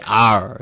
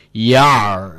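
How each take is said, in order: First: Ar without y; plain ar, no y glide; ar pronounced. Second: Yar with a y glide; yar pronounced. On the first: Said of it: "pirates don't say". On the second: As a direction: say yar not ar. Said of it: "pirates don't say "ar," they say". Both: Shown as a demonstration.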